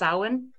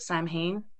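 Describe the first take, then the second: First: The name is said in its Gaelic pronunciation. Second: The name is said in a common anglicized pronunciation. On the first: The speaker calls it right. "Samhain is Gaelic, and it's pronounced Samhain" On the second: The speaker calls it wrong. "so many people pronounce it Samhain"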